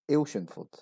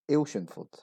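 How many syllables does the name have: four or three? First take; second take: three; three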